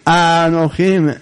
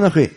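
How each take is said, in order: First: The first syllable is lengthened with secondary stress. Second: The first syllable is short and unmarked. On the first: The speaker calls it right. "יש שם מתג" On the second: The speaker calls it wrong. "לא אנוכי"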